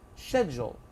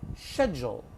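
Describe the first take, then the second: First: It is said in a British accent. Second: The same.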